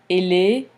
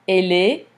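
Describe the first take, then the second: No difference in how they are said.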